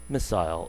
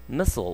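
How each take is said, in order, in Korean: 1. 영국식 억양으로 말한 거예요. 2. 미국식 억양으로 말한 거예요. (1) "이런 식으로 영국식으로 발음이 됩니다" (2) "미사일은 missile 이렇게 발음하지만"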